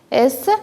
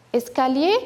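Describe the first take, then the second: First: "Escalier" broken up by clear pauses between syllables; split into syllables. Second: Said in the usual way. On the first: Shown as a demonstration. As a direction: beat out each syllable of "Escalier" separately. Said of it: "claquer les doigts cette fois-ci pour savoir". (« Escalier » en syllabes bien séparées) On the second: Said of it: "on va essayer de claquer les doigts".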